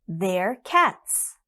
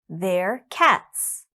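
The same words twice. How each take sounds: Both takes have the same delivery.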